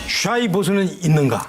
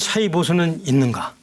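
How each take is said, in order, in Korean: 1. 첫 단어는 'sh' 소리로 시작합니다. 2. 첫 단어는 평범한 's' 소리로 시작합니다. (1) "다시 할게" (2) "잘못하면 사이비 보수로 들리니까 샤이"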